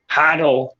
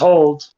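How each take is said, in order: First: It is said like 'hoddle', with a d sound. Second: It is said like the plain word 'hold'. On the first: This is how the project itself says it. "how they pronounce it. I guess is hodl" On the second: This is how the speakers themselves say it. "we pronounce it as hold"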